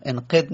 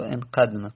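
First: "انقد" with an e after the q, "enqed"; wrong vowel. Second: "انقدن" with a short a after the q, "enqadna"; correct vowel. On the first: Teacher warns students off a wrong form, mispronounced with e. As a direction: say "انقد" wrongly with a short e in the second syllable. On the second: Teacher gives students the correct form, pronounced with a. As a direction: say "انقدن" with an a in the second syllable. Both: Shown as a demonstration. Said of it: "انقد نگید و انقدن".

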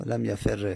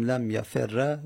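First: لم یفر read "lam yaferre"; kasra ending. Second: لم یفر read "lam yaferra"; fatha ending. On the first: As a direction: end لم یفر on doubled r and e. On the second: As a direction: end لم یفر on doubled r and a. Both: Shown as a demonstration.

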